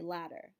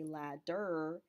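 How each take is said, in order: First: The middle consonant is a quick flap. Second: The middle consonant is a clear D. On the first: The speaker calls it right. "but you say ladder" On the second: The speaker calls it wrong. "you don't say ladder"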